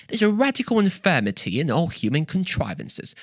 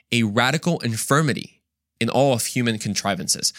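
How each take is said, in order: First: A light, mock British accent, pitched up. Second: Said in the usual way. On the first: Lecturer quoting Edmund Burke to the class in a mild British accent. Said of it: "he said in, in the British accent". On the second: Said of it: "in the British accent".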